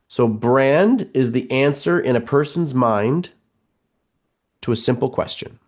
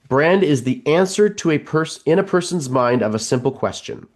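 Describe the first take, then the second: First: It is said slowly. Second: It is said at normal speed.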